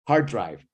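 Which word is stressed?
hard. The stress falls on the word hard. "Set phrase"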